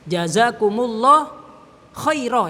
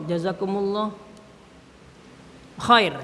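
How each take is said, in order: First: The last word ends with an added a vowel. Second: The last word ends on the consonant r. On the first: The speaker calls it right. "yang benar" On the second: The speaker calls it wrong. "itu salah"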